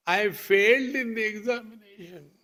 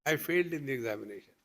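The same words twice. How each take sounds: First: Put-on crying child. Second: Said in the usual way. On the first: Child confessing a bad dream to his father, mock wail. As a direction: wail it like an upset schoolchild. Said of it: "who got up in the morning and started crying".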